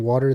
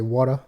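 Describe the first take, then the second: First: The R sound is pronounced, American style. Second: The R sound is dropped, British style. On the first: This is how British speakers used to say it. "they used to pronounce R's like Americans do" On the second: This is how British speakers say it now. "they say water"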